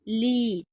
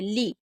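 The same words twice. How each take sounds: First: The syllable is said slowly and long. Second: The syllable is said quickly and short. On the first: "जहाँ धीरे बोलेंगे" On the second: "यहाँ पर हम जल्दी बोल रहे"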